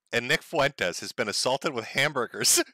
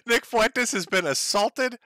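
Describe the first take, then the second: First: Said in the usual way. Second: Slow, higher, laughing through the line; amused incredulous repeat. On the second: Real, not acted. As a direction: laugh in disbelief while repeating it.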